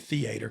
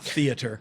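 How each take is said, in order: First: It is said with a Southern pronunciation. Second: It is said with a standard pronunciation. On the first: "I did say theater, because I'm from Georgia" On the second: "and not theater"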